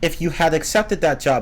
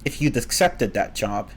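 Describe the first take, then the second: First: The word had is said fully and clearly. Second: The word had is shortened to a faint d. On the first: The speaker calls it right. "I just prefer to say had" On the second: The speaker calls it wrong. "pronouncing the apostrophe D like this just sounds awkward to me"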